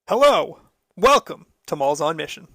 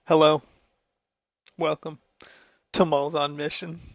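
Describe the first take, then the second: First: The voice is lively and full of energy. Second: The voice is flat and monotone. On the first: The speaker sounds excited to be there. "I can't match that energy" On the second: The speaker does not sound excited to be there. "It was also a little monotone"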